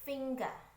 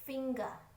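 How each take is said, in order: First: It is said with a British accent. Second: The same.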